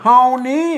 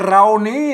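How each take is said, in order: First: The word begins with an H sound. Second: The word begins with an R sound. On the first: The speaker calls it right. "ล้านนาเฮานี้" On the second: The speaker calls it wrong. "ไม่ใช่เรานี้"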